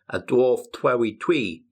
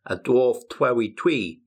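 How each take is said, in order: First: The ch and tr sounds come out blurred. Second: The ch and tr sounds come out blurred.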